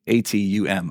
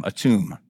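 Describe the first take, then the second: First: A T U M read as four separate letters; spelled out. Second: Atum said as one word, uh-TOOM, falling; name said. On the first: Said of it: "I don't know if I'm saying this, pronouncing the name correctly". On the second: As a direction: say Atum whole, stress on the second syllable. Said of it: "pronouncing the name correctly". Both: Shown as a demonstration.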